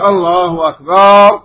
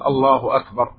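First: The vowel after the b is lengthened. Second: The vowel after the b is short. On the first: The word becomes a plural meaning drums. The speaker calls it wrong. "مد للألف بعد الباء تعني مجموعة أطبال" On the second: God is greater. The speaker calls it right. "لن يقول الله أكبر"

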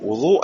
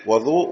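First: The first vowel is u. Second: The first vowel is a. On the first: It refers to the act of washing. "بوضوء الضم ... وضوء الفعل" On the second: It refers to the water used for washing. "وضوء هو الإيش؟ الماء"

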